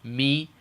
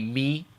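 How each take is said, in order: Both takes have the same delivery.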